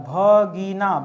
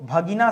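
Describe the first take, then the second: First: भगीना drawn out as three separate syllables. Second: Said in the usual way. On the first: Shown as a demonstration. Teacher introduces a new word, भगीना slowly sounded out.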